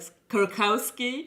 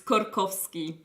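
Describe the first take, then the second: First: The name is said with an American pronunciation. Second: The name is said with a Polish pronunciation. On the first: This is how the family in America says it. "we know that you will say something like" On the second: This is how Polish speakers say it. "for us it's"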